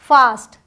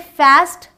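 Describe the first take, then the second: First: The vowel is the open British 'aa'. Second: The vowel is the flat American 'a'.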